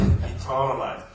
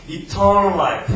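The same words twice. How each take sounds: First: "eternal life" repeated slowly and softer, falling; softer slow echo. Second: "Eternal life" drawn out very slowly and much louder, weight on "eternal"; slow emphatic English. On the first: ("eternal life"를 천천히 작게 되뇌듯) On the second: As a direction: stretch out "Eternal life" slowly and loudly, pressing "eternal". ("Eternal life"를 아주 천천히 크게, "eternal"에 힘주어) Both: Shown as a demonstration.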